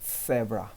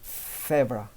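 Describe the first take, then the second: First: The first consonant sounds like a th. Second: The same.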